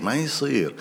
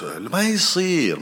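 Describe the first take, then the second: First: Said in the usual way. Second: Slow, higher insistence on يصير; emphatic no. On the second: Real, not acted. Telling husbands firmly it's not acceptable, slow and emphatic. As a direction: stretch out ما يصير and lift it firmly. Rejecting husbands who mistreat wives.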